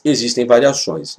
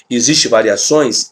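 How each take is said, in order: First: "Existem variações." stated with a falling, settled end; answering own question. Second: "Existem variações?" asked with a questioning lift at the end; rhetorical question. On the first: Teacher answering the class, "Existem variações." with a falling tune. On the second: Teacher to students, asking "Existem variações?" with a rising tune. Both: Shown as a demonstration.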